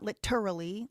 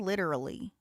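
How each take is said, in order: First: The t is a full, crisp t sound. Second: The t is a quick flapped d-like sound. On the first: "not literally" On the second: "we say literally with the flap"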